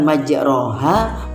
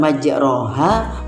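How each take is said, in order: First: The vowel after r is a clear a. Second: The vowel after r is a clear a.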